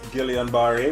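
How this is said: The name is said with English sounds. "which is like the English pronunciation"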